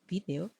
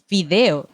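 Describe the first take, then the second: First: The stress is on the first syllable. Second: The stress is on the second syllable. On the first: This is how it is said in Spain. "video con acento en la I" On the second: This is how it is said in Venezuela. "nosotros decimos video"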